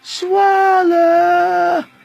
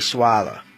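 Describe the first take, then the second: First: The word is shouted like a scream. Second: The word is said calmly and plainly.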